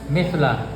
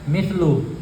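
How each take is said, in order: First: The word ends with an 'a' vowel. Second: The word ends with an 'u' vowel. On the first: The speaker calls it right. "Yang betul adalah mithla" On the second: The speaker calls it wrong. "Baru bacanya mithlu"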